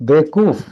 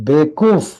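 First: The middle wa syllable is dropped. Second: The same.

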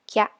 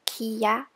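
First: The word is blended into one syllable. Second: The word is split into two syllables. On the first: The speaker calls it right. "we pronounce as kya" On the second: The speaker calls it wrong. "Instead of kiya"

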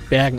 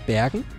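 First: The word is said with a firm exclamatory tune. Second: The word is said with a questioning tune. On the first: The speaker calls it right. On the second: The speaker calls it wrong. "War jetzt ein bisschen falsch betont"

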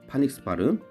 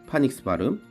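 No difference in how they are said.

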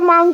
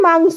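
First: The word ends with a k sound. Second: The word ends with an s sound. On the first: The speaker calls it wrong. "তুমি জানো ওটা মাংক নয়" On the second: The speaker calls it right.

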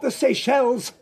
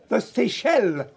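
First: The word ends with an audible S sound. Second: The word ends without an S sound. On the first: The speaker calls it wrong. "not the Seychelles" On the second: The speaker calls it right. "It doesn't have an S on the end"

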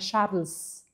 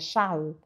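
First: The final s sound is pronounced. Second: The final s sound is left silent. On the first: The speaker calls it wrong. "não é Charles" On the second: The speaker calls it right. "o S não se fala em Charles"

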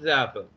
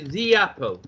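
First: 'The' is said as 'thuh' before 'apple'. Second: 'The' is said as 'thee', linking into 'apple'. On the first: The speaker calls it wrong. "not the apple" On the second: The speaker calls it right. "I'm going to say the apple"

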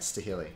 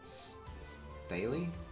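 First: The name is said with an H sound. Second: The name is said without an H sound. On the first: "I say it right" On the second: "pronounced with a silent H"

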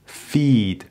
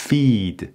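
The two takes are said the same way.

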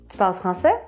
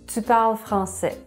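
First: The voice rises at the end. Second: The voice falls at the end. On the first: It asks a yes-or-no question. "monter l'intonation à la fin de la phrase" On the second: It states a fact. "la phrase normale"

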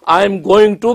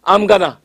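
First: Each word is said fully and separately. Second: The words are blended into one reduced form.

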